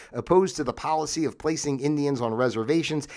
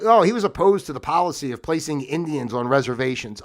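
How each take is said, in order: First: Said in the usual way. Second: Lightly mocking the official account; sarcastic echo of a complaint; mock disapproval. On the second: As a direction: quote it as a mock accusation. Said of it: "they make it like he's a bad guy".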